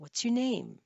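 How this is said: Pitch rises before falling, sounding friendly. The speaker calls it right. "Those sound more friendly"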